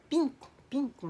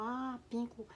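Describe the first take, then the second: First: PINCO repeated high and clear; teacher modelling a word. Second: Soft, raised "Ah, pinco"; learner's echo. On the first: Japanese coworker teaching a colour word, high modelling voice. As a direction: imitate a teacher presenting "pinco", pitched up. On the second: Learner answering her Japanese teacher, soft echo. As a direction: repeat PINCO quietly, as if taking it in. Learner echoes the new word. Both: Retold or imitated.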